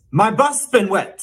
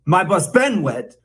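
First: "bus" stressed high in "my bus been wet". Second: "been" stressed in "my bus been wet"; wrong stress on BEEN. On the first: Mock teacher modelling the correct version, stress on "bus". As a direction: lift the pitch and lean on "bus". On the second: Mock teacher showing a second common error, stress on "been". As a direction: put the weight on "been", the third word. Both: Shown as a demonstration. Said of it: "stress on the wrong syllable".

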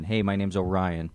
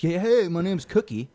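First: Said in the usual way. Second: Higher, put-on cheery introduction; mock an over-eager hello, pitched up; hammed-up self-introduction. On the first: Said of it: "like a normal person". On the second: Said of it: "I never introduce myself as".

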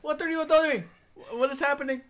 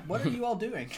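First: Very high, raised-voice cry; bewildered yell. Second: Higher-pitched, not raised in volume; bewildered question. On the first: Jose yelling at the party, high bewildered yell. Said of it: "Jose yells". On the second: Player questioning the party, high puzzled voice. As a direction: ask it high, baffled. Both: Acted.

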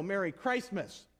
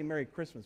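First: Merry Christmas drawn out slowly, a little louder, with weight on Merry; emphatic Merry Christmas. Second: Said in the usual way. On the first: Shown as a demonstration. Pastor answering a shop clerk with a pointed, emphatic Merry Christmas. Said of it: "I put a little emphasis in it, you know, phonetically". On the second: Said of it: "I put a little emphasis in it".

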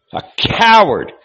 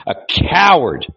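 First: Shouted insult. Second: Scornful repeat. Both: A narrator's reading. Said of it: "he flung at him with scorn".

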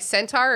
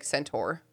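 First: "Centaur" with the second syllable as TAR; pronunciation option. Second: "Centaur" with the second syllable as TOR; alternative pronunciation. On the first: Host asking co-hosts how to say it, SEN-tar "Centaur". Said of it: "Is it, like, Centaur or is it". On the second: Host asking co-hosts how to say it, SEN-tor "Centaur". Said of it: "or is it, like, Centaur". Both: Shown as a demonstration.

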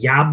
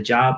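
First: "yob", job with a Y sound; dad's accented JOB. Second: Said in the usual way. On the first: Retold or imitated. Son showing dad's accent, "job" pronounced "yob". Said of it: "he says". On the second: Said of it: "instead of".

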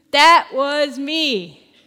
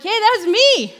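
First: THAT WAS ME stretched out slowly and loudly; loud, drawn-out THAT WAS ME; emphatic insistence. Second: High, loud excited call; excited insistence. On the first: Healed man repeats his claim. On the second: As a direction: pipe up loudly to be recognised. Healed man insisting to doubters. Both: Retold or imitated.

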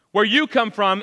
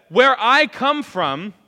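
First: "you" lifted and punched for contrast; stress on YOU. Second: "I" lifted high and loud, slowly drawn out; stress on I. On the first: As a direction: lean on "you", pitched up a little. Contrasts their origin with his. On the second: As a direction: punch "I" with a slow, loud contrast. Contrasts his origin with theirs. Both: Acted.

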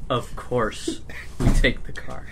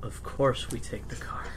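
First: Slowly, drawn out, as if it's obvious; unhurried matter-of-fact drawl; slow deliberate Linda. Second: Breathy whisper, much softer, like a secret; soft conspiratorial whisper; whispered aside. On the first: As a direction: stretch each word out lazily. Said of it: "She like". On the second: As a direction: hush it under your breath. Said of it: "Linda says that". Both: Acted.

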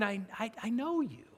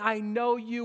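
First: Soft, understanding "I know you"; hushed and accepting; without condemnation. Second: Said in the usual way. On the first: Acted. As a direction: say it gently, much quieter, without accusing. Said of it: "He's not saying ... with condemnation". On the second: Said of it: "with condemnation".

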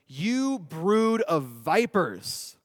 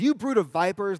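First: Slow, weighty reading of John's rebuke; stern John. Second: Louder, punchy mock rebuke; John rebuking. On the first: A narrator's reading. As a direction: draw each word out like a prophet condemning them. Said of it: "John said to them". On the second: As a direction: fire it at them like a playground burn. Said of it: "he goes".

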